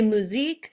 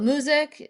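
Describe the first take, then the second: First: The name ends with a long 'eek' sound. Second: The name ends with the sounds 'eye-cue'. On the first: Others pronounce the name this way. "Some people say musique" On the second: The owners pronounce the name this way. "we call it music, you know, m- like muse I Q"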